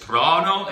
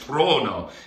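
First: The O vowel is open. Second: The O vowel is closed. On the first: "There's open and closed" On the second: "There's open and closed"

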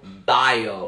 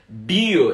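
First: It is pronounced with English sounds. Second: It is pronounced with Brazilian Portuguese sounds.

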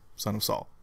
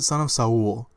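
First: The title is said with a plain American accent. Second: The title is said with a Spanish-style accent. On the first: This is the usual way to say the title. The speaker calls it right. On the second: This imitates how the presenter at the ceremony said the title. The speaker calls it wrong. "She pronounced it Son of Saul"

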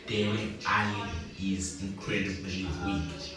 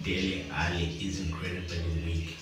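First: It is said slowly. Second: It is said at normal speed.

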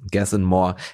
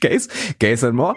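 First: The first word is said with a plain German 'a'. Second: The first word is said like English 'gays'.

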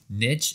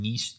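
First: The word has an American English pronunciation. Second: The word has a British English pronunciation. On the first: "in American English" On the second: "in British English"

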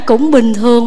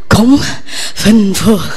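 First: It is said in a normal, steady voice. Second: It is said breathlessly, with puffed consonants. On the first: The speaker has enough breath to talk. "Thay vì nói cũng bình thường" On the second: The speaker is too out of breath to talk. "Vừa thở vừa đạp vừa nói vậy"

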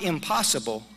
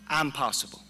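First: The first syllable has a short 'im' sound. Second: The first syllable has a long 'eye' sound. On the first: It cannot be done. The speaker calls it wrong. "the correct pronunciation is not impossible" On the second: I am capable of it. The speaker calls it right. "The correct pronunciation is I'm possible"

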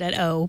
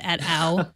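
First: The handle is said like the letter O. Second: The handle is said like the exclamation 'ow'. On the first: "Or probably you pronounce it at O" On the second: "I say Ow whenever I read it"

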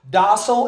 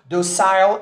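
First: The word is said with an American pronunciation. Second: The word is said with a British pronunciation. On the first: "Docile is the American pronunciation" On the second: "Docile is the British pronunciation"

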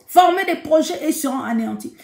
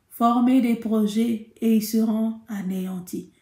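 First: It is said forcefully, like a war cry. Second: It is said limply, without energy.

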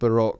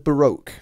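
First: It is said with a British pronunciation. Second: It is said with an American pronunciation. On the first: "we kind of call it Baroque here" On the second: "you American folks, you call it the Baroque period"

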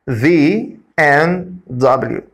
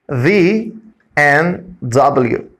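No difference in how they are said.

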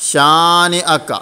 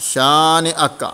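The two takes are said the same way.

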